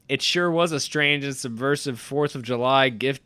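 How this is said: It is read in a sarcastic tone. The reviewer is mocking the film.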